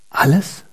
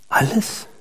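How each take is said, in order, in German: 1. Das Wort wird mit normaler Stimme gesagt. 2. Das Wort wird mit weicherer Stimme gesagt.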